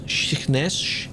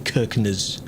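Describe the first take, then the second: First: The name is said the local way, unlike its spelling. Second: The name is said the way it is spelled. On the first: This is how locals say the name. "Apparently that's like Shiknes" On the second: This lets viewers know which place is meant. "I have to say Kirkness for them to understand"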